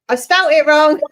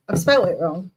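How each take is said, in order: First: Louder, higher outburst of realisation; loud, amused self-correction; exclaiming at own mistake. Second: Said in the usual way. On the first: Real, not acted. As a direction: blurt it out loud and high.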